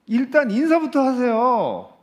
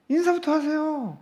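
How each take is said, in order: First: 인사부터 stressed, slow and loud, falling tune; slow emphatic. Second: 인사부터 pitched much higher, slow, falling; higher repeat. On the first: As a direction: draw out 인사부터 firmly. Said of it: "여러분". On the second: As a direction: lift 인사부터 high and slow. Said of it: "예?". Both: Shown as a demonstration.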